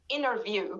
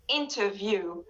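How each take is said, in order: First: The t after n is dropped, American style. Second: The t after n is fully pronounced, British style. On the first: "We don't pronounce the T in American accent when it comes after the N. So Kayla says inner" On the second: "But in British accent, they say inter"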